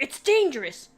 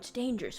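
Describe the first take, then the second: First: It is said in a harsh, angry tone. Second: It is said in a soft, gentle tone. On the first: The speaker is forbidding it in anger. "I didn't think he'd be angry. But he's like" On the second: The speaker is worried and cautious. "I thought he would be more like"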